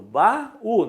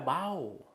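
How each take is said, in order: First: The a and u are in separate syllables. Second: The a and u glide into one syllable. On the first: The speaker calls it right. "facilmente eu percebo que é o hiato. Baú" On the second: The speaker calls it wrong. "não é baú"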